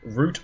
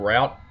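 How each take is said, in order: First: The vowel sounds like the one in 'boot'. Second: The vowel sounds like the one in 'out'. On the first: This is the everyday way the speaker says it. "often I'll say root" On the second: This avoids a rude slang meaning. "sometimes I say route in polite company"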